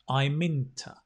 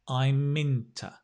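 Both takes have the same delivery.

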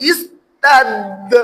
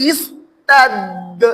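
Both takes have the same delivery.

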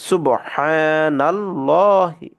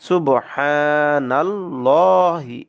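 The two takes are said the same way.

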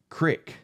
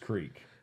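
First: The word has a short vowel, like 'stick'. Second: The word has a long vowel, like 'seek'. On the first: "That also reminds me of the word itself, crick" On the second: "Versus creek"

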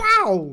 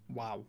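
First: It sounds loud and overly excited. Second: It sounds flat and unimpressed.

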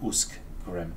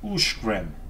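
First: The middle cluster is pronounced as sk. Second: The middle cluster is pronounced as sh. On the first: The speaker calls it wrong. "and not Uskgrim" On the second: The speaker calls it right. "Uskgrim is Ushgrim"

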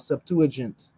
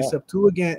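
First: It is said with a J sound. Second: It is said with a hard G sound. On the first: The speaker calls it wrong. "instead of Septuagint" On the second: The speaker calls it right. "that's why I say Septuagint"

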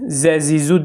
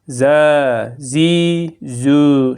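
First: The vowels are cut short. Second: The vowels are drawn out long. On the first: The speaker calls it wrong. "Kısaltmayın. Yani z, zi, zu değil ha" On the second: The speaker calls it right. "şeklinde uzatılarak okunması gerekiyor"

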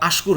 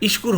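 First: The word begins with an a vowel. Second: The word begins with an i vowel. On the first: "আশকুর হবে না" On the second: "ইশকুর হবে না"

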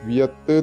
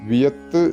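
The two takes are said the same way.

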